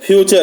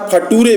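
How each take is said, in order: First: The middle consonant is a ch sound. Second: The middle consonant is a t sound. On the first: The speaker calls it right. "मतलब है फ्यूचर से" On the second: The speaker calls it wrong. "उसका फटूरे से मतलब है फ्यूचर से"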